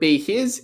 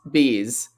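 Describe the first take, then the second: First: The h in his is clearly pronounced. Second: The h is dropped, merging the words. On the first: "instead of be his" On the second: "the H has been reduced again"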